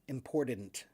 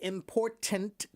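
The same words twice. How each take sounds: First: The middle T is softened or left out. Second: The middle T is pronounced clearly and hard. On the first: The speaker calls it wrong. "it's almost like a soft D, or like they take the, the D out altogether, the T out altogether" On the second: The speaker calls it right. "I pronounce the hard T"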